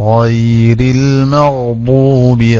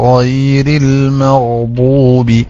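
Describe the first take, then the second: No difference in how they are said.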